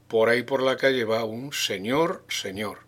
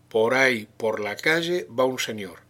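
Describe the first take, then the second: First: It is said with an insinuating, ironic undertone. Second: It is said in a plain, neutral tone.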